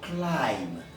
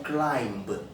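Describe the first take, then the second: First: The word ends without a b sound. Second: The word ends with a b sound. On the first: The speaker calls it right. "nous allons dire climb" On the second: The speaker calls it wrong. "ont souvent tendance à prononcer ce B"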